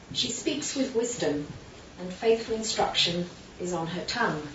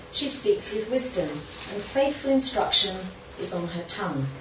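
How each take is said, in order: Both takes have the same delivery.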